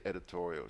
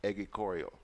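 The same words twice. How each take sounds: First: Said in the usual way. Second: "editorial" said as "egicorial"; imitated slip, "editorial" as "eggy-CORE-ial"; mispronounced editorial. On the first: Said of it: "She couldn't say editorial". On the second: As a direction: swap d and t for g and k in "editorial". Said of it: "She couldn't say editorial. She said".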